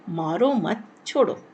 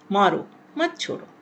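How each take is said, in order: First: Slow, मारो मत together, then छोड़ो; group मारो मत, set छोड़ो apart; pause after मत. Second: मारो alone, then मत छोड़ो together; pause after मारो. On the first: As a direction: break after मत, before छोड़ो. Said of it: "मारो मत के बाद विराम चिन्ह लगाया गया है छोड़ो". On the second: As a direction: break straight after मारो. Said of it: "मारो के बाद विराम चिन्ह लगाया गया मत छोड़ो". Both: Shown as a demonstration.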